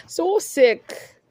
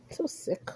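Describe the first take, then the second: First: Higher, full-voiced exclamation of disgust; openly disgusted exclamation. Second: Breathy whisper of disgust; a hushed, disgusted aside. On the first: Repeats aside, now aloud. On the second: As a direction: whisper it under your breath. Muttered aside during rant. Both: Real, not acted.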